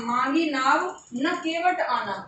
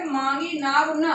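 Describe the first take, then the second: First: "मांगी नाव", pause, then "न केवट आना"; slow phrasing, न grouped with "केवट आना"; pause after नाव. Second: "मांगी नाव न" as one group; pause after न. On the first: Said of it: "comma लगा दिया". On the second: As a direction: attach न to नाव, then stop. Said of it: "अगले में हमने लगाया". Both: Shown as a demonstration.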